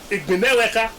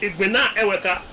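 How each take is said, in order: First: The first vowel is dropped, the parts run together. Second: Both vowels are kept between the two parts. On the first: The speaker calls it right. "in running speech... it's Igbineweka, because of that elision process" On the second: The speaker calls it wrong. "we don't say Igbina Eweka"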